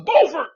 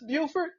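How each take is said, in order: First: The name is pronounced like 'Beaufort'. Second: The name is pronounced like 'Buford'. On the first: It names the local town. The speaker calls it right. "This is Beaufort" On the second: It names the town in South Carolina. The speaker calls it wrong. "Is this Buford?"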